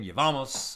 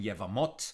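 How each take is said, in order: First: It is said in Ashkenazi Hebrew pronunciation. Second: It is said in modern Sephardic Hebrew pronunciation.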